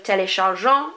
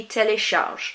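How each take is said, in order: First: Téléchargeant with nasal ant at the end; full ending. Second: Télécharge ending on the zh sound; silent ending. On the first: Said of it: "instead of". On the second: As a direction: say télécharge with nothing after the g. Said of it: "Do not pronounce it". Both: Shown as a demonstration.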